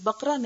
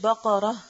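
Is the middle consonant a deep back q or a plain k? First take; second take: plain k; deep q. First: The middle consonant is a plain front k. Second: The middle consonant is a deep back q. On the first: The speaker calls it wrong. "ये बकरा नहीं है" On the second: The speaker calls it right. "इसको हमेशा प्रोनाउंस करते वक्त बक़रा"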